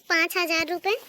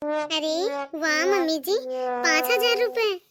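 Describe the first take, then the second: First: Said in the usual way. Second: Drawn-out, thrilled exclamation over a gift; wowed, savouring the words; delighted amazement. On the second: Acted. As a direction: marvel slowly at the money. Daughter-in-law delighted by cash gift.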